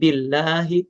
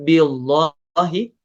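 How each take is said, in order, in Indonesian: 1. Bunyi L-nya ringan dan tipis. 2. Bunyi L-nya berat dan tebal.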